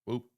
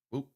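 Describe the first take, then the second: No difference in how they are said.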